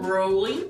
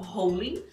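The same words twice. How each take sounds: First: The R is curled back, retroflex. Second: The R is a Portuguese-style R. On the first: The speaker calls it right. "deve ser feita com esse R retroflexo, então enrolar bem a língua" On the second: The speaker calls it wrong. "não rolling"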